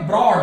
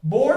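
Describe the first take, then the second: First: ब्रॉड with the R sounded after B; R pronounced. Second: बोर्ड said as "bawd", R dropped; silent R. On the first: Teacher contrasts it with board, R pronounced in ब्रॉड. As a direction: say ब्रॉड with a clear R before the vowel. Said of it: "तो आर का उच्चारण होगा". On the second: Teacher contrasts it with broad, बोर्ड with silent R. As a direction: say बोर्ड with no R before D. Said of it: "आर का उच्चारण नहीं होगा". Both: Shown as a demonstration.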